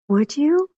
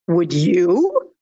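First: It sounds pleasantly surprised and touched. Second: It sounds challenging and self-assured. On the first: The listener's willingness means a lot. "wow, I'm pleasantly surprised" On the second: The speaker is right and should not be questioned. "I'm right and don't challenge me because you wouldn't do it either"

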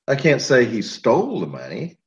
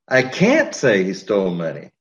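First: The word "stole" is stressed. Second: The word "can't" is stressed. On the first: He may have got it another way. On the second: Saying it is not allowed.

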